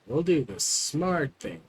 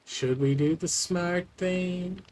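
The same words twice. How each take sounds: First: Said in the usual way. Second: Higher, slower teasing question; playful question. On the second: Pretend. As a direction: lift it up, drawn out and coy. Repeats phrase as playful question.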